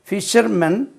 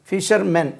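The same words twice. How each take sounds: The two takes are said the same way.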